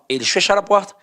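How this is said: It is read firmly as a statement.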